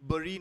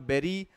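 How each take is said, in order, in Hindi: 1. अंत छोटा बोला जाता है, 'bree' जैसा। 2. अंत पूरा बोला जाता है, 'berry' जैसा। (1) "बरी नॉट बेरी" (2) "नॉट बेरी"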